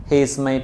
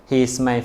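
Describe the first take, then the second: Both takes have the same delivery.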